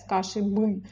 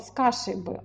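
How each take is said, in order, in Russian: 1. Ударение на слове бы. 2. Ударение на слове кашей. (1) "На бы мы не можем сказать" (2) "произносится как одно слово с кашей бы, а ударение все на каше"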